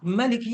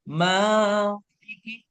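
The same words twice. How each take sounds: First: The first vowel is short and quick. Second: The first vowel is drawn out long. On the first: This is one accepted reading of the word. "Cepat Maliki Yaumiddin" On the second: This is another accepted reading of the word. "dibaca panjang Maliki"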